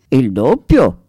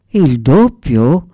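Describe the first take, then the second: First: "Il doppio?" settled and falling, sure of itself; serene, assured "Il doppio?" closing the matter; calm confirmation. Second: Slow, dreamlike murmured question rising at the end; stunned, drawn-out "Il doppio?" barely believing it; dazed murmur. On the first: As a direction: confirm "Il doppio?" calmly, with a steady fall. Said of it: "confermò Donatello sicuro e sereno". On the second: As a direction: drag out "Il doppio?" as if in a daze. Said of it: "mormorarono come trasognati". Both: A narrator's reading.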